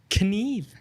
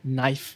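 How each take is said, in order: First: The word starts with an audible K sound. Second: The word starts without a K sound. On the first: The speaker calls it wrong. "So I speak out loud" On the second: The speaker calls it right. "the K is silent"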